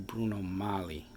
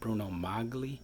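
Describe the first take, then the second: First: The g in the surname is silent. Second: The g in the surname is pronounced.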